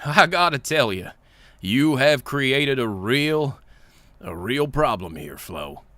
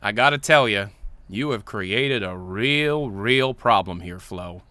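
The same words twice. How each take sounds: First: Lightly voiced, drawn-out character read; Engie. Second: Said in the usual way. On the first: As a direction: read it slowly as a troubled engineer. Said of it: "so that's Engie talking". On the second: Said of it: "Oh, okay, so that's Engie talking".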